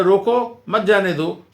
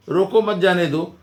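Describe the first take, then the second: First: रोको held, a short break, then मत जाने दो; pause after रोको. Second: Said in the usual way. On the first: Shown as a demonstration. Teacher showing how little changes the meaning, pause after रोको. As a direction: stop briefly after रोको before saying मत जाने दो. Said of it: "ज़रा रुका मैंने खाली". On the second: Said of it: "दोनों में कितना फ़र्क है".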